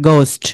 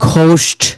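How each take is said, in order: First: The first consonant is plain, with no h sound. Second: The first consonant is breathy, with an h sound. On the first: The speaker calls it right. "কিন্তু তারা কি বলবে গোস্ট, মানে এইচ এর pronounce হবে না" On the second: The speaker calls it wrong. "আমরা কি বলি সবাই ঘোস্ট"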